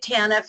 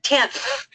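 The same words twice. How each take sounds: First: Two syllables, with the stress on the first. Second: Said as one single syllable. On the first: "I say it TANF" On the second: "make it a one-syllable word"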